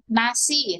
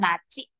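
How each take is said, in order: First: It has an n start and an s sound. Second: It has an n start and a c sound.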